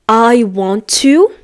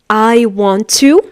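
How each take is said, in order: No difference in how they are said.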